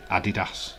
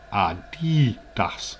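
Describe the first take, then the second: First: Said in the usual way. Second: Adidas slow, with a long "DEEE"; Adidas as "ah-DEEE-das"; exaggerated middle stress. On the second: Shown as a demonstration. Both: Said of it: "emphasising the wrong part".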